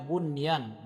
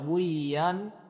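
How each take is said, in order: First: The n sound is pronounced clearly and distinctly. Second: The n sound is merged away and not heard. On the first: The speaker calls it right. "dibaca bunyan dengan izhar, dengan jelas" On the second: The speaker calls it wrong. "Tidak kita baca buyan"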